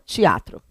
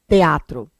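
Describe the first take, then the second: First: It has a Carioca accent, E sounding like I. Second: It has a Paulista accent with a clear E.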